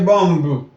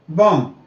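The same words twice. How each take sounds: First: The final b sound is pronounced. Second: The final b sound is silent. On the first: The speaker calls it wrong. "You don't say bomb" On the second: The speaker calls it right. "The B's they are silent every time"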